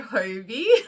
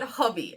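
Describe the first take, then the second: First: The first vowel is long, unlike 'hobby'. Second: The name sounds like the word 'hobby'. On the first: The speaker calls it wrong. "I just say Hobie" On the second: The speaker calls it right. "it's actually pronounced Hobby"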